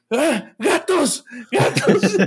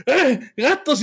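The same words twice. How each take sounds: First: High, drawn-out startled shout; half-asleep alarmed cry of "¡Gatos!"; startled yell. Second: High mock yell of "¡Ah, gatos!" as the wife retells it; mock cry of alarm; mimicked yell. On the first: Retold or imitated. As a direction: yell at the cats, jolted awake. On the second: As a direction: imitate his startled shout, playfully. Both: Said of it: "tu pinche grito de".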